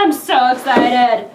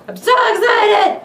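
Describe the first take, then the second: First: Sung excitement. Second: High loud burst of joy; yelling with unboxing excitement; excited shout. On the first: Acted. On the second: Real, not acted.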